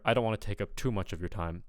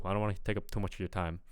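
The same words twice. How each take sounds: First: Said in the usual way. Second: Quicker line with a short vowel in "too". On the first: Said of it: "I would expect to hear". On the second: Shown as a demonstration. Coach imitates what they hear, short "too". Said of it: "but I'm kinda hear, like".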